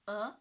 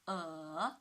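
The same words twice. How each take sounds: First: The pitch rises from mid to high. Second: The pitch dips low, then rises. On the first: "The second tone. Yes. From three to five" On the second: "the third tone ... from two to one to four"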